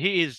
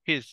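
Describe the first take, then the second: First: The two words are said separately and in full. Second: The two words merge into one short syllable. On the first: "মানে হি ইজ" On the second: "বলবা হিজ হিজ হিজ"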